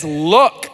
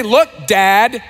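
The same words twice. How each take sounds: First: "Look." dropped low and short, no "Dad"; a cold, clipped "Look." with no greeting; curt, blunt. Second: Polite address. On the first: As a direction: say "Look." bluntly and lower, like a resentful son to his father. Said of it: "He just says". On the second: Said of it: "He doesn't say". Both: Shown as a demonstration.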